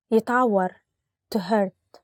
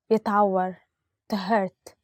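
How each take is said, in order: Both takes have the same delivery.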